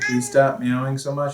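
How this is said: The voice sounds calm and gentle. "Please stop using a calm voice"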